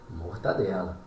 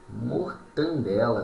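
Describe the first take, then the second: First: No n sound comes before the d. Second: An extra n sound comes before the d. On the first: The speaker calls it right. "correto aqui é mortadela" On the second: The speaker calls it wrong. "Não existe mortandela"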